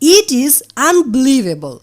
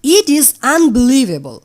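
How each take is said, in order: Both takes have the same delivery.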